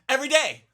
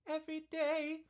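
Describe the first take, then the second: First: It is said loudly and forcefully. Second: It is said softly without forcing.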